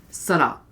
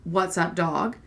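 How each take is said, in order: First: "Sada" squashed into two quick, lower syllables; super fast. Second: Said in the usual way. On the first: Shown as a demonstration. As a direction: run "Sada" together like a teen's slang greeting. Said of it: "Like, super fast". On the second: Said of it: "This is how my son".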